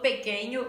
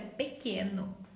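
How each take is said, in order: First: The middle consonant is an ny sound. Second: The middle consonant is a plain n sound. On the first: The speaker calls it wrong. "Já vi muita gente aí falando pequeno e em português não" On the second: The speaker calls it right. "em português é pequeno, sem o nho"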